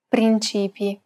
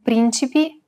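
First: "principi" stressed on CI, as prin-CÌ-pi; stress on second syllable. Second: "Principi" stressed on PRIN, as PRÌN-ci-pi; stress on first syllable. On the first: Teacher telling two look-alike words apart, "principi" stressed on CI. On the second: Teacher telling two look-alike words apart, "Principi" stressed on PRIN. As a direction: hit the first syllable of "Principi", keep "ci" short. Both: Shown as a demonstration. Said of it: "distinguish between two words".

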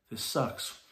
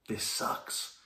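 First: Said in the usual way. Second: Whispered. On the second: Retold or imitated. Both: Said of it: "saying to you".

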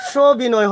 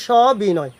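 First: সবিনয় with a closed o, "sho-binoy"; wrong pronunciation. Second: সবিনয় with an open "aw", "shaw-binoy"; correct pronunciation. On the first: Teacher shows what not to say, সবিনয় mispronounced "sho-binoy". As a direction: round the first vowel of সবিনয় to o. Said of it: "হবে না". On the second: Teacher answers the question, সবিনয় pronounced "shaw-binoy". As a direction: open up the first vowel of সবিনয়. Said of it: "তো এটা হবে কি". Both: Shown as a demonstration.

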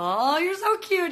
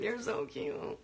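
First: High, loud gushing squeal; excited cooing. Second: Soft, breathless whisper; whispered cooing. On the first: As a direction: gush over how cute it is. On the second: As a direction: whisper it like a shy secret. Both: Real, not acted. Cooing over a viewer.

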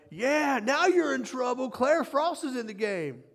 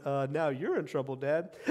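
First: High-pitched proud crowing; excited cheering dad. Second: Parents' deadpan retort. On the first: Dad at his daughter's first game, cheering excitedly. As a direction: crow it like a boastful fan, high and lively. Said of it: "and I went". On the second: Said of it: "All the parents went". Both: Retold or imitated.

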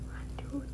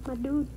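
First: Breathy whispered my dude; whispering. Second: Said in the usual way. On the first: Shown as a demonstration.

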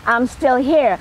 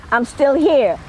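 No difference in how they are said.

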